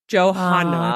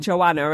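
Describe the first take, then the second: First: The name is said with an h sound. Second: The name is said without an h sound. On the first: The speaker calls it right. "There's an H in it, so I think it's Johanna" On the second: The speaker calls it wrong. "I was calling her Joanna, and it's not Joanna"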